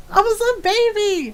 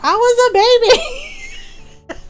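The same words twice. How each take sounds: First: Said in the usual way. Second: High, laughing, drawn out; laughing protest. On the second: Retold or imitated. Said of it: "I was just like".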